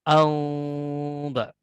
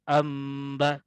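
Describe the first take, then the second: First: The nasal is made with the lips slightly apart. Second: The nasal is made with the lips fully closed. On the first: "al-furjah artinya merenggangkan kedua belah bibir kita" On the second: "Kalau yang tadi amba"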